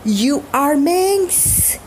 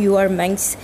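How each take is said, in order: First: It is said in a harsh, angry tone. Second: It is said in a plain, casual tone. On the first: She is a shameless woman. "इस tone में बोलें तो मतलब बेशरम औरत" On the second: "just एक normally सा मिंक्स बोला"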